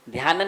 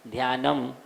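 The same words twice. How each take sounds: First: ध्यानन ending on n; wrong ending. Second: ध्यानम closed on a clear m; correct ending. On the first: Teacher showing students what to avoid, wrong ending. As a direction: close ध्यानन on n instead of m. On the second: Teacher correcting the n ending, correct ending. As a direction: shut the lips on the m of ध्यानम. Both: Shown as a demonstration. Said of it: "ध्यानन नहीं बोलेंगे".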